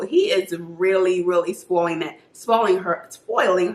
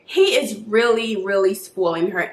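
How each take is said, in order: First: Slight lisp through a retainer; wearing a retainer. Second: Said in the usual way. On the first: Real, not acted. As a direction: talk around a dental retainer. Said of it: "I can't talk with this retainer". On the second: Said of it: "I'm gonna have to take it out".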